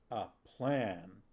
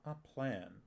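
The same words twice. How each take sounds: First: The word plan is said with heavy emphasis. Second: The word plan is said plainly, without emphasis. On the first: It is a grand, serious scheme. "The second time it did have a capital P in plan. In case my enunciation did not get that across" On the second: It is just an ordinary plan. "The first one did not have a capital P"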